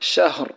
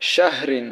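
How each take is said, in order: First: The word stops on a bare final r. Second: The word ends with a full -in ending. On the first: The reader stops at this word. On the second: The reader continues without stopping.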